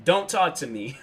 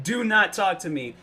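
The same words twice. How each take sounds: First: Said in the usual way. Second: "not" pushed out higher and firmer; mock-huffy stress on "not". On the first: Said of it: "He was like". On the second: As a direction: lean hard on "not" in "Do not talk to me". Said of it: "I'm like".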